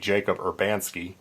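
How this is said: The name is said with an American pronunciation. "American pronunciation would be"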